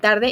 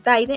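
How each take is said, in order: First: The first syllable ends with an R sound. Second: The first syllable ends with an I sound.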